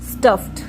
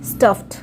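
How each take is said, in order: First: The ending is pronounced as a t sound. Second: The same.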